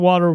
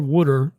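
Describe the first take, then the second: First: The word is said in a general American accent. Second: The word is said in a Philadelphia accent.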